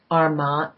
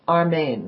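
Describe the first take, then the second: First: The name ends with a 'mahnd' sound. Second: The name ends with a 'main' sound. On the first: The speaker calls it wrong. "I'm saying it wrong" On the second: The speaker calls it right. "It's Armaine, right?"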